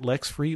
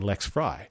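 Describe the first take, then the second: First: The last syllable has the vowel of 'tree'. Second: The last syllable has the vowel of 'try'. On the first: Other people read the name this way. "people who want to pronounce it Lex Free" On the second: The owner of the name reads it this way. "I look at my name and I say Lex Fry"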